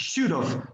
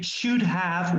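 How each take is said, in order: First: The words are blended into one reduced form. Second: Both words are pronounced fully and separately. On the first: The speaker calls it right. "We said we should have worn" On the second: The speaker calls it wrong. "we do not usually say should have worn"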